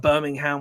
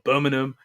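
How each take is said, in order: First: It is said in an American way. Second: It is said in a British regional way. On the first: It sounds like the name of the American city. The speaker calls it wrong. "to hit it with a Birmingham was a bit cringy for me" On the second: It matches how local people say the city's name. The speaker calls it right. "closer to pronunciation from people in, with regional dialects in the U K"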